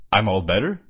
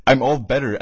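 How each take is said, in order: First: "better" rising into a question. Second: "I'm all better" repeated, puzzled at the punctuation; quoted question. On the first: A narrator's reading. Shadow claims his foot healed, "better" rising questioningly. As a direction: read "I'm all better" as unsure question. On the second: Shown as a demonstration. Reader queries the odd punctuation, quoting "better" questioningly. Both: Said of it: "as a question".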